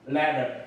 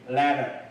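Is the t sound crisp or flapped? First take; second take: flapped; flapped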